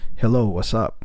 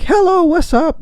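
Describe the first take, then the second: First: It is said in a deep, masculine voice. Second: It is said in a bright, uplifting voice.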